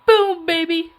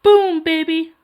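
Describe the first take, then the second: First: Put-on loud, higher "Boom, baby" catchphrase; Cartman-style boast; South Park quote. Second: Put-on loud, higher "Boom, baby" shout; cartoon catchphrase; South Park quote. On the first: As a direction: punch it out like a cartoon kid. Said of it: "but I say, I say". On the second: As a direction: belt the catchphrase. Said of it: "I say".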